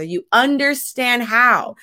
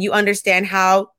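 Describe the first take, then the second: First: UNDERSTAND HOW raised and slowed; emphatic repeat. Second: Said in the usual way. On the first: Real, not acted. Repeating a friendship sign to listeners, stress on understand how. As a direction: punch "understand how" word by word, drawn out.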